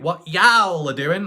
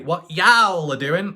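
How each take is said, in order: First: It is drawn out in an exaggerated accent. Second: It is drawn out in an exaggerated accent.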